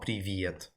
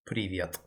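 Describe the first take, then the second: First: An extra E sound comes before the V. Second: A single E sound, with no extra vowel. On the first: The speaker calls it wrong. "It's not привет. It's not E V" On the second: The speaker calls it right. "It's just привет"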